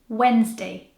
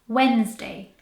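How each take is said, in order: No difference in how they are said.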